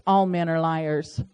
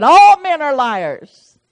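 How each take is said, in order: First: Said in the usual way. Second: "All men are liars" said louder, "All" hit hard with a falling end; hasty outburst. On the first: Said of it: "I said in my haste". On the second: Shown as a demonstration. Preacher acting the psalmist's rash outcry, louder with "All" stressed. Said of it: "I got a little hasty".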